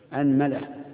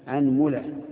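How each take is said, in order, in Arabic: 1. الحركة التي بعد الميم هي a. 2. الحركة التي بعد الميم هي u. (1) "افتحوا مع فتح الهمزة" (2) "ضمه مع فتحها أي الهمزة"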